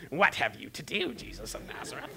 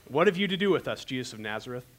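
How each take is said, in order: First: Mock demon, high start dropping to a whispery rasp; hammed-up demon cry fading into a hiss; playfully put-on demon voice. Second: Jokingly dainty demon, pitched up then settling down; mock soft, sweet demon. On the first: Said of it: "like, a demon-y voice". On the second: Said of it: "like, soft, sweet voices".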